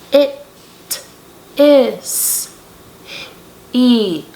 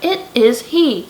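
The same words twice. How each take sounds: First: It is said slowly, word by word. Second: It is said fast, words run together.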